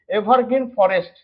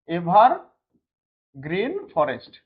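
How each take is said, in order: First: Said in the usual way. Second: evergreen forest drawn out very slowly, word by word; slow, spaced-out repeat. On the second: Shown as a demonstration. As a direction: dictate the term slowly to a class, pausing before forest. Teacher repeats term slowly for class. (ধীরে ধীরে, টেনে টেনে বলা)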